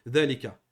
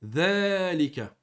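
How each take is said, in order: First: "dhalika" said quickly with a clipped first a; short wrong vowel. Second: "Dhalika" with the first a stretched long and slow; long dhal vowel. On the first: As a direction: rush "dhalika" without any lengthening. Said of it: "Il ne faut pas dire". (« dhalika » prononcé vite, sans prolongation) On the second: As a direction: draw out the "Dha" of "Dhalika" for two beats. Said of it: "on le prononce avec une prolongation après le dhal". (« Dhalika » avec le a du dhal bien prolongé) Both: Shown as a demonstration.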